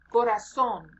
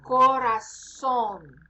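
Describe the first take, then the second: First: "Corazón" at normal speed, z still said as s; quick natural "Corazón" with s for z; natural pace. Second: "Corazón" said very slowly with the z as a clear s; teacher's slow "Corazón" with s for z; slow pronunciation model. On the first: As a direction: say "Corazón" naturally, ending on a stressed SOHN. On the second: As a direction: stretch out "Corazón", koh-rah-SOHN with an s sound. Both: Shown as a demonstration. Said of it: "Z sounds like S in this case".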